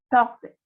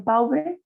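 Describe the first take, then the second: First: Pauvre with a single pure O, "poh-vre". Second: Pauvre said "pow-bre", A and U both sounded; wrong spelled-out vowels. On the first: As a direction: make the au of Pauvre one French O. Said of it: "Suena como una O". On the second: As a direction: split the au of pauvre into a slow "a-u". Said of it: "Ustedes no dicen pauvre". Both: Shown as a demonstration.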